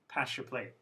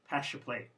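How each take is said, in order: First: The s and y blend into sh. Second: The same.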